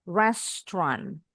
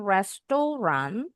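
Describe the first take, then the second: First: "Restaurant" slowly as res-tran, no middle O; two syllables. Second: "restoran" with a full middle O, res-to-ran; three-syllable reading. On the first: Teacher shows the proper reading, "Restaurant" in just two syllables. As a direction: squeeze "Restaurant" into two beats. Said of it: "Bacanya cuma dua suku kata". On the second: Teacher shows the reading to avoid, "restoran" in three syllables. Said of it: "Tapi bacanya bukan". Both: Shown as a demonstration.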